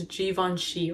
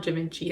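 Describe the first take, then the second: First: "Givenchy" as "zhee-von-shee"; French-style "Givenchy", with "von" in the middle; corrected pronunciation. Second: "Givenchy" with a short "vin" in the middle; rejected pronunciation. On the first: Settling on the brand name for viewers, "Givenchy" said French-style with "von". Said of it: "it's not Givenchy. It's Givenchy". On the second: Correcting themselves on the brand name, "Givenchy" with an English "vin". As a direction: say "Givenchy" as "jih-VIN-chee". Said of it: "it's not Givenchy". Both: Shown as a demonstration.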